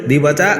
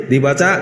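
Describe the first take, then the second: The two takes are said the same way.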